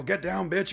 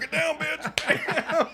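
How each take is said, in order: First: Raised-pitch mock command; mild mock yell; retold yell. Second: Very high, drawn-out yell, half laughing; loud comic shriek of command; mock yell. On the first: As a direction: imitate the order to yell, only half yelled. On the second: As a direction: scream the line slowly, hammed up. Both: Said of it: "you're gonna yell".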